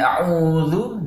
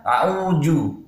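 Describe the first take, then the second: First: The last consonant is a soft dh sound. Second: The last consonant is a j sound. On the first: The speaker calls it right. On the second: The speaker calls it wrong.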